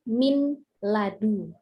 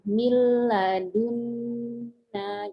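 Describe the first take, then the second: First: The n is pronounced clearly, then the l. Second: The n is merged into a doubled l. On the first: The speaker calls it wrong. "kalau dibaca kepotong-potong" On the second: The speaker calls it right. "dileburkan suara nunnya"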